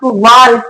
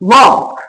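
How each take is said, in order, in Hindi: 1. इस शब्द में L की ध्वनि बोली जाती है। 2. इस शब्द से L की ध्वनि छोड़ दी जाती है। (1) "एल का साउंड साथ में पढ़ लेते" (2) "एल साइलेंट रहता है"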